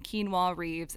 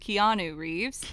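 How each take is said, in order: First: The first name sounds like 'KEEN-wah'. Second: The first name sounds like 'kee-AH-noo'. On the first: The speaker calls it wrong. "I pronounced this name Quinoa Reeves" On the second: The speaker calls it right. "but it is Keanu Reeves"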